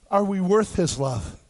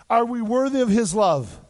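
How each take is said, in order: First: Worth hit hard, slower answer-begging question; stress on worth. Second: Worthy leaned on, question asked as a no; stress on worthy. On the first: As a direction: punch the word worth. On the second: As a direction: weigh the word worthy, tune falling. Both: Shown as a demonstration.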